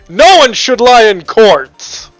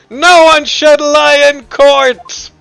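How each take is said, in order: First: The line is delivered in a more serious tone. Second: The line is delivered in a lighter tone.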